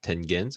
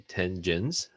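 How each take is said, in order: First: "tangens" with a hard g, as in "get"; hard-g pronunciation. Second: "tangens" with a soft g, like "jens"; soft-g pronunciation. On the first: Teacher unsure of a Latin word, "tangens" with a hard g. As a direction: say "tangens" as TEN-ghens. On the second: Teacher trying out a Latin word, "tangens" with a soft g. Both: Shown as a demonstration. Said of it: "no idea how to pronounce that".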